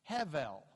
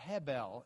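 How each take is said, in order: First: The middle consonant is a V sound. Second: The middle consonant is a B sound. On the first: The letter is written without a dot. "No dot in it makes it a V sound here" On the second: The letter is written with a dot. "or Hebel if it's the dots in it"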